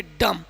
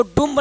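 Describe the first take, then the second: First: "डम" ending cleanly on m, no b; silent b. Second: "डुम्ब" with the b sounded; wrong pronunciation. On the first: Teacher models the rule for students, silent b in "डम". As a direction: say "डम" with an uh vowel and the b dropped. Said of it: "तो बी का उच्चारण नहीं करेंगे". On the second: Teacher shows students the reading to avoid, b pronounced in "डुम्ब". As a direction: say "डुम्ब" with an oo vowel and audible b at the end. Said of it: "इसको डुम्ब नहीं पढ़ेंगे". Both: Shown as a demonstration.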